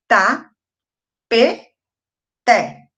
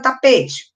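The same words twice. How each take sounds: First: "Ta, pe, te" with a clear pause between syllables; split into syllables. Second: Said in the usual way. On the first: Shown as a demonstration. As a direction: sound out "Ta, pe, te" one syllable at a time. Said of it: "Como é que eu separo a palavra tapete". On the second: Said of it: "Como é que eu separo".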